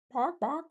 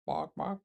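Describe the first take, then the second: First: Squeaky, very high yapping bark; mock dog bark. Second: Mock dog bark. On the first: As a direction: yap it out like a tiny dog, pitched way up. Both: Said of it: "That doesn't sound like a duck".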